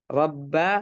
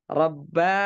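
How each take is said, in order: No difference in how they are said.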